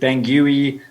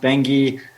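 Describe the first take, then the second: First: The name is said an anglicized way. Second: The name is said the local way. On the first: The speaker calls it wrong. "I'd pronounced it Bangui" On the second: The speaker calls it right. "It's pronounced Bangui"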